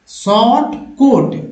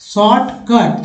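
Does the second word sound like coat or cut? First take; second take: coat; cut. First: The second word has a long o vowel. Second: The second word has a short u vowel. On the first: The speaker calls it wrong. "लेकिन पढ़ेंगे short कोट" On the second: The speaker calls it right. "भाई कोट थोड़ी लिखा हुआ है"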